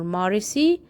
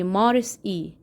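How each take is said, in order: First: The final E is run into the word. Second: The final E is said as its own syllable. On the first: The speaker calls it wrong. "Instead of Marcy or Marisi" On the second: The speaker calls it right. "we're gonna pronounce it by itself and say Maris E"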